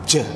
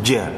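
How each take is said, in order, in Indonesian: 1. Diucapkan dengan hembusan udara. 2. Diucapkan tanpa hembusan udara. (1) "Tapi kadang seseorang" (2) "yang benar tanpa hams, tidak ada udara yang keluar"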